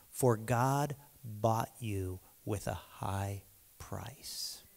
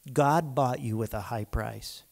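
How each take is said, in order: First: Slow, breathless whispered scripture; whispered Bible verse. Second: Said in the usual way. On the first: Acted. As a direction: hush it like a sacred secret. Reading scripture hushed.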